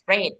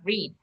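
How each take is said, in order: First: The vowel is short, rhyming with bed. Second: The vowel is long, rhyming with need. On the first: The action is in the past. The speaker calls it right. "we are talking in the past, so this one you have to pronounce as read" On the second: The action is in the present. The speaker calls it wrong. "not read"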